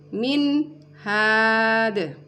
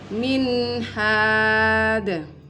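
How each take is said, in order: First: The n is cut off before the h. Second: The n is clear and flows into the h. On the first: The speaker calls it wrong. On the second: The speaker calls it right.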